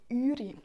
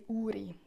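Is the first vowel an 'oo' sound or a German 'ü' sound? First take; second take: ü; oo. First: Urnerdeutsch dialect form, with an 'ü' first vowel. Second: Standard form, with an 'oo' first vowel.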